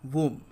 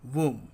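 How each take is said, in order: The two takes are said the same way.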